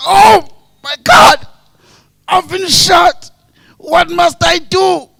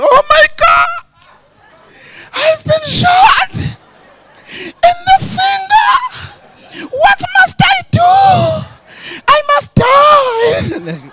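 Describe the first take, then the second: First: High, slow theatrical shout; exaggerated wounded man's yell; mock shot victim. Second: Very high, slow melodramatic wail; mock crying over a tiny wound, every word stretched out; hammed-up loud, high lament. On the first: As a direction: cry out loudly with each word drawn out. Replaying the shot man's cry.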